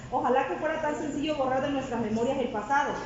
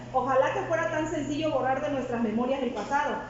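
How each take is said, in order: The two takes are said the same way.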